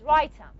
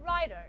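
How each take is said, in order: First: "writer" with a full t in place of the flap; clear t, no flap. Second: "writer" with a flapped t, American style. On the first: Teacher showing an allophone swap, "writer" with a clear t. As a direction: pronounce the t in "writer" as a true t. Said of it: "if I said writer". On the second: Teacher showing what Americans understand, flapped "writer". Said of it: "just like Americans". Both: Shown as a demonstration.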